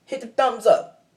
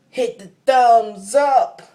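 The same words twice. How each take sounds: First: High, loud, quicker repeat; raised hype-up call; rallying call. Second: High, loud, drawn-out call; stretched hype-up holler; rallying shout. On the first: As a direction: call it out to the viewers without stretching it. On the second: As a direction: belt it out slowly to the viewers. Calling out to viewers for likes. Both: Real, not acted.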